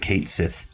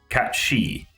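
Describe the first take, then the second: First: The name ends with a 'sith' sound. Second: The name ends with a 'shee' sound. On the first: This is the common pronunciation. The speaker calls it wrong. "everyone under the sun called him Cait Sith" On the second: This is the original pronunciation. The speaker calls it right. "it's actually pronounced Cat-Shi"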